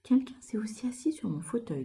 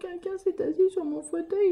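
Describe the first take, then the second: First: It is said in a medium-pitched voice. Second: It is said in a small, crying voice.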